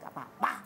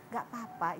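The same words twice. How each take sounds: First: It is said in a sulky, displeased tone. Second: It is said in a plain, sincere tone. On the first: Something actually is wrong. "Tapi kalau dia ngomong nggak apa-apa gitu" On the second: Nothing is actually wrong. "itu benar nggak ada apa-apa"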